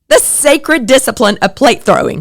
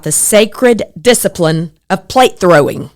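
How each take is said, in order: First: Sacred discipline of plate throwing lifted higher, each word relished; savoring the phrase. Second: Said in the usual way. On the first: Shown as a demonstration. Speaker relishing a funny book phrase, lifted and amused. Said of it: "Doesn't that make you laugh?".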